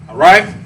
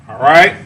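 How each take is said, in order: The two takes are said the same way.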